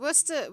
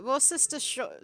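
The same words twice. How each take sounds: First: Worcester said short as Wuster. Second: Worcestershire read as written, Wor-ces-ter-shire; spelled-out reading. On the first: Brit explains the short way to say Worcester. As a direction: clip Worcester to two syllables. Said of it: "we call it Worcester sauce". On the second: Brit shows the spelling-style reading of Worcestershire. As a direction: sound out every letter of Worcestershire. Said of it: "how it's spelled". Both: Shown as a demonstration.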